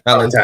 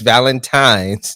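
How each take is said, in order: First: The word ends without an s sound. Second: The word ends with an s sound. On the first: The speaker calls it wrong. "not Valentine" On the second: The speaker calls it right. "Here they say it's Valentine's"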